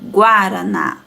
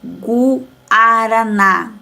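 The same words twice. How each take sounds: First: The syllables flow together without breaks. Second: The syllables are said apart with breaks. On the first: The speaker calls it right. "não separo essa sílaba, eu falo lá junto" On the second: The speaker calls it wrong. "se a professora falasse separadamente"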